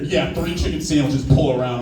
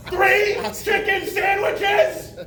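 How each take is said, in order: First: Imitated cashier dropping the chirpy act; voice suddenly changed. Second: Very high, drawn-out mock yell; overdone screech into the speaker; hammed-up deaf shout. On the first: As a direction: repeat the order plainly, unimpressed cashier. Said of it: "her voice changed real quick". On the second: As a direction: shout the order slowly, like someone deafened.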